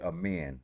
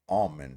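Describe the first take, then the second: First: The name sounds like the word amen. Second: The name sounds like the word almond. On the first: The speaker calls it right. "But I say Amen" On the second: The speaker calls it wrong. "you have Almond, which I don't like at all"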